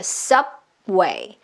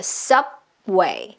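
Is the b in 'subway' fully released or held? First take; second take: held; held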